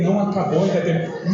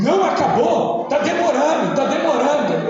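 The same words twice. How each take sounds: First: Said in the usual way. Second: High-pitched imitation of a complaining boy; whine-free high, loud mock child's protest. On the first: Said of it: "eu falando pra ele". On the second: Small son complaining to his father during mass, loud. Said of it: "Ele falando alto assim".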